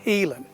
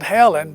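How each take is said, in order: First: The first vowel sounds like 'ee'. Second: The first vowel sounds like 'eh'. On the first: This is how the woman herself said her name. "she pronounced it Healing" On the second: This is how most people say the name. "that's the way people are going to pronounce it"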